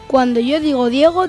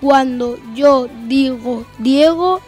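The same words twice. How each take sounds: First: The phrase is spoken at a normal pace. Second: The phrase is spoken at a slow pace. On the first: "Velocidad normal" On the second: "Velocidad lenta"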